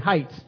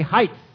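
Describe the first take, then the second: First: The word ends with a T sound. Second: The word ends with a TH sound. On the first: The speaker calls it right. "But it is actually heights, just with a T on the end" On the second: The speaker calls it wrong. "we add an H to the end of height and we say heights"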